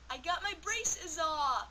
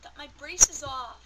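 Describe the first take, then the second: First: Higher, louder, slow announcement; excited reveal. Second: Much louder, slow joyful shout; excited shout. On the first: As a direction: proudly announce the news. Big reveal of braces off. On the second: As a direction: shout it out with joy. Repeats the reveal louder. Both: Real, not acted.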